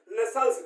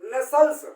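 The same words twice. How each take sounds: First: नेसल्स said with a falling, settled tune and a softer end; नेसल्स stated flatly as the answer, falling; falling final tune. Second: नेसल्स said with a rising, asking tune; नेसल्स asked back to the class, rising; rising question tune. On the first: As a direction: close on नेसल्स with a firm drop. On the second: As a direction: lift the end of नेसल्स like a question. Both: Shown as a demonstration. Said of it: "उनको हमने नाम दिया नेसल्स".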